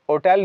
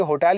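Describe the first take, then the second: First: "होटल" begun on the vowel, as o-tel; wrongly dropped H. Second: "होटल" with its h audible, as ho-tel; sounded H. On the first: Teacher showing what not to say, h dropped from "होटल". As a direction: leave the h off "होटल". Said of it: "एच को हम होटल नहीं कहेंगे". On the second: Teacher giving learners the correct form, h kept in "होटल". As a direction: keep the h at the start of "होटल". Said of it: "होटल ही कहेंगे". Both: Shown as a demonstration.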